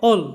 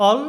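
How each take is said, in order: First: অল as "all" with a rounded o; British "all"; British accent. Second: অল as "all" with an open a; American "all"; American accent. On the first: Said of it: "আর British অ্যাকসেন্টে". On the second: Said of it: "American অ্যাকসেন্টে". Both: Shown as a demonstration.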